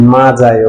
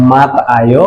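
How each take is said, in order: First: মা, যায় with no t sound, and য্ spoken as j; actual pronunciation. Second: মাত, আয় said as two separate syllables with a t ending মাত; মাত, আয় with a clear t sound and a break before আয়; expected pronunciation. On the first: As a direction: say মা then যায় as it is really spoken. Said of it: "but উচ্চারণটা হয়ে যাবে". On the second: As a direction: spell out মাত then আয় as the rule would predict. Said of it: "উচ্চারণটা হওয়ার কথা ছিল". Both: Shown as a demonstration.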